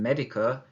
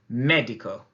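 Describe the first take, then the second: First: The stress is not on the E syllable. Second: The stress falls on the E syllable. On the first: The speaker calls it wrong. "rather than" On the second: The speaker calls it right. "we need to really stress that, that sound"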